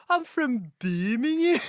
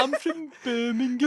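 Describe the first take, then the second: First: Put-on slow drawn-out Birmingham accent; mock Brummie, stretched out. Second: Slow mock Brummie, higher; Birmingham accent. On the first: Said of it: "like, Birmingham as well". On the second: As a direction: copy the Brummie drawl.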